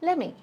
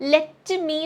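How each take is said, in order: First: The words are reduced and run together. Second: Both words are said fully and separately. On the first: The speaker calls it right. "pronunciation natural ആക്കാം" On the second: The speaker calls it wrong. "എന്ന് പറയണ്ട"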